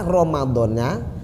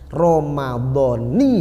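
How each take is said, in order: First: The word ends with an 'a' vowel. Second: The word ends with an 'i' vowel. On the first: The fast is for Ramadan in general, any year. The speaker calls it wrong. "Kalau dibaca fathah Ramadhana" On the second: The fast is for this year's Ramadan specifically. The speaker calls it right. "itu kalau nunnya dibaca kasroh"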